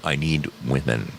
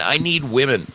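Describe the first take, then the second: First: Said in the usual way. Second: Pleading, pitched up; begging. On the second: Real, not acted. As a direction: beg for them to come. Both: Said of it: "I'm begging for contestants".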